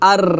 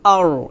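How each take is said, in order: First: The r sound is light and thin. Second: The r sound is heavy and full. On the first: The speaker calls it wrong. "এটা হবে না" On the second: The speaker calls it right. "আর মোটো হবে"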